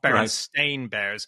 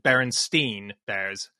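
First: The last syllable of the name sounds like 'stain'. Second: The last syllable of the name sounds like 'steen'. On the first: This is the name printed on the cover. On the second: This is the name people remember from childhood. "believe that it was called"

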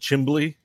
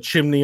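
First: The middle has an added b-l sound. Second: The middle has a plain m-n sound. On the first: The speaker calls it wrong. "it was a chimbley" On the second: The speaker calls it right. "It wasn't a chimney in our house"

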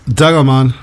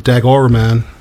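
First: It is said in the speaker's own accent. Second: It is said in an American accent.

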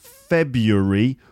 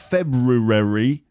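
First: The 'r' after 'Feb' is left out. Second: The 'r' after 'Feb' is clearly pronounced. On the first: The speaker calls it right. "No, it's actually pronounced February" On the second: The speaker calls it wrong. "But it's not pronounced February"

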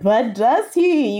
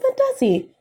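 First: It is said in a dramatic, theatrical way. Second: It is said in a plain, casual way. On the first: The speaker calls it right. "You have to say it like that" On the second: The speaker calls it wrong. "You can't be like"

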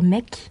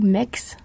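First: The word ends without an s sound. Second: The word ends with an s sound. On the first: It sounds like the slang word for guys. "ça fait un peu MEC, genre MEC au pluriel" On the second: It sounds like a meaningless word. "ça veut rien dire"

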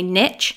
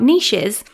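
First: The word is said with an American pronunciation. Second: The word is said with a non-American pronunciation. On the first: "if you're in America, I think you say niche" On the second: "I'm going to say niches because that's the way I say it"

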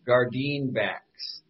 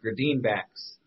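First: The word is said at a normal pace. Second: The word is said quickly.

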